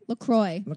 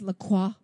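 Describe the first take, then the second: First: The final syllable rhymes with 'enjoy'. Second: The final syllable does not rhyme with 'enjoy'. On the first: The speaker calls it right. "It rhymes with enjoy. That is how you pronounce it" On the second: The speaker calls it wrong. "permission to smack anyone that says LaCroix"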